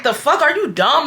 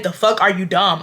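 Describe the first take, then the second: First: Higher-pitched indignant challenge; acting out a fed-up outburst; getting mad. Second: Said in the usual way. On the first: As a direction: retell it as an incredulous snap. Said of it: "I start getting mad". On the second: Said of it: "I literally said".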